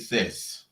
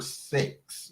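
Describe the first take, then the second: First: The word is said with the vowel of 'sis'. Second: The word is said with the vowel of 'sex'. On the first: This is how one other person says it. The speaker calls it wrong. "Why she say sis?" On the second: This is how everyone says it. The speaker calls it right. "We all say the word sex"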